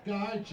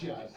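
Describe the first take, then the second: First: Higher, louder gush; excited compliment. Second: Lower, settled echo of the compliment; low repeat. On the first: Host gushes over a guest, loud and excited. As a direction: gasp it out admiringly. Host reacting to someone's look. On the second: Host echoes the compliment to the guest, lower and savoring. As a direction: let it sink low and savoring. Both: Real, not acted.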